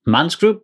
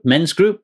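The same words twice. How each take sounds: First: Man's group? said with a flat a, like man; a questioning Man's group? with the a of man; man's with a as in cat. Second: Men's group? corrected to the e of bed; self-correcting to Men's group? with a short e. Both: Real, not acted.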